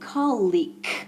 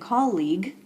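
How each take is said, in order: First: The word ends with a voiceless K sound. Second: The word ends with a voiced G sound.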